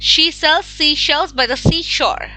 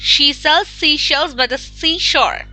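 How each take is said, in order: The two takes are said the same way.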